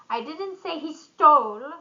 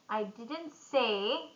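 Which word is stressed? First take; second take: stole; say. First: The stress falls on the word stole. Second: The stress falls on the word say. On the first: It may have been borrowed. "maybe borrowed" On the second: It was implied, not said. "I implied it"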